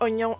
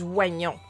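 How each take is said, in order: First: It is said the usual way, not as written. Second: It is said as written, sounding every spelled letter.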